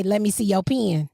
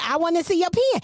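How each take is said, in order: First: "pen" said like "pin"; "pen" with a Southern pin vowel; "pen" rhymes with "pin"; country pen. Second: "pen" said like "pin", high; "pen" sounded as "pin"; "pen" with the pin vowel; country pen. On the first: Shown as a demonstration. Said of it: "if I walk up to y'all and I say". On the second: Retold or imitated. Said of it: "I said".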